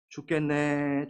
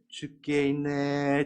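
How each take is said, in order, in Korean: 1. 이 말은 짧고 끊어서 말해요. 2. 이 말은 길게 늘여서 말해요.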